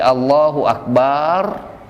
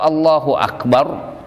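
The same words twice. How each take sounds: First: The first vowel of Akbar is drawn out long. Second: The first vowel of Akbar is short. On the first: It means a drum. The speaker calls it wrong. "panjang ya" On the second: God is the greatest. The speaker calls it right. "tidak bermat ya, tidak tidak ada matnya"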